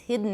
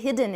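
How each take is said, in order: First: The d releases straight into a syllabic n. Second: A short vowel is heard before the final n. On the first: The speaker calls it right. "it's hidden. ... see if you can learn nasal plosion" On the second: The speaker calls it wrong. "we wouldn't say hidden"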